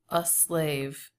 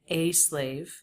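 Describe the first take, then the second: First: The article is a short, weak schwa sound. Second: The article is a full 'ay' vowel sound. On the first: "He does make this a schwa" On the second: "He doesn't say a slave"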